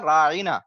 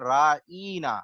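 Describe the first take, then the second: First: The middle vowel is short and plain. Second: The middle vowel is drawn out long. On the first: Please pay attention to us. The speaker calls it right. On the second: O our shepherd, said in mockery. The speaker calls it wrong.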